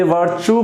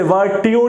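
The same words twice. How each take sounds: First: वर्च्यू said as "ver-choo" with a ch sound; correct pronunciation. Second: वर्च्यू said as "ver-tee-yu" with a hard t; wrong pronunciation. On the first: Teacher giving students the right reading of वर्च्यू, ch sound. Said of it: "वर्च्यू पढ़ा जाता है". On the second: Teacher showing students a mistaken reading of वर्च्यू, hard t. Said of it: "इसे वर्च्यू नहीं पढ़ते". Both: Shown as a demonstration.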